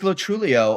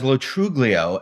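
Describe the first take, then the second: First: The middle G sound is not pronounced. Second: The middle G sound is clearly pronounced. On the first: This is the current form of the name. "it is it is Latrulio" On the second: This was the original form of the name. "it began as Lotruglio"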